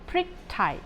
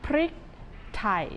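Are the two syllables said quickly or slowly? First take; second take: quickly; slowly. First: The two syllables are said at a quick pace. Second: The two syllables are said at a slower pace. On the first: "If you want to be like a native Thai, say these two syllables quickly" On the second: "Say these two syllables together"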